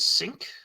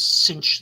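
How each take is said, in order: First: The name ends with a k sound, like sync. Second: The name ends with a ch sound, like cinch. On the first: "I pronounce his name as Synch because his powers is to kind of like sync up" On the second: "A lot of people pronounce that as Cinch"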